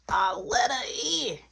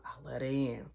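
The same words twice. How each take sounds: First: "I let her in" high and drawn out; slow, emphatic "I let her in"; dramatic repeat. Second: Said in the usual way. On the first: Real, not acted. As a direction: stretch "in" out in a raised voice.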